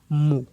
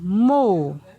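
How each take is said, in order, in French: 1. La syllabe est prononcée sur un ton bas. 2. La syllabe est prononcée sur un ton descendant. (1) "un ton bas" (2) "Ton descendant"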